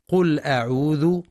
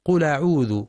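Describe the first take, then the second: First: قل أعوذ said qul 'a'udhu, with a break after l; clear glottal hamza. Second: قل أعوذ run together as qula'udhu; dropped hamza, mistaken. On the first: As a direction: keep the l of قل closed before أعوذ. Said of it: "والصواب تحقيقها، فهي همزة قطع". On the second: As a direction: slide the l of قل into أعوذ. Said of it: "كأنها همزة وصل". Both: Shown as a demonstration.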